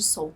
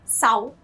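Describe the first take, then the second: First: The vowel is pronounced as an 'o'. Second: The vowel is pronounced as an open 'a'. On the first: The speaker calls it wrong. "em vez de Sol" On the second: The speaker calls it right. "o primeiro O não é acentuado, então é Sal"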